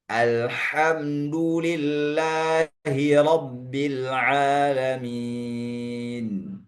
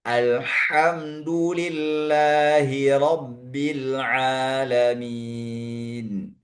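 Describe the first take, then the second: Both takes have the same delivery.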